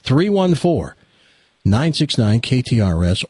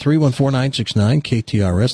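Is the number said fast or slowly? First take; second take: slowly; fast. First: The number is said slowly. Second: The number is said fast.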